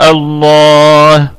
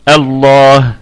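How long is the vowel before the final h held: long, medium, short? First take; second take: medium; short. First: The long vowel is held for four counts. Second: The long vowel is held for two counts. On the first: "توسط الله اربعة" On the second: "هذا بالقصر"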